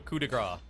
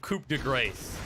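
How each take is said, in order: First: The phrase is said the French way. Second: The phrase is said the anglicized way. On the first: The speaker calls it right. "If it's a French word ... it's probably posh" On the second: The speaker calls it wrong. "if you don't know how to say it"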